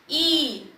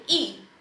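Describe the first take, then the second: First: ई stretched long; long drawn-out i. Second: ई said short and gentle; a brief ई, not drawn out. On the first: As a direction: pull the vowel ई out. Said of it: "उसको हम खींच के बोलते हैं". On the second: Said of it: "हम उसे धीरे से बोलेंगे". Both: Shown as a demonstration.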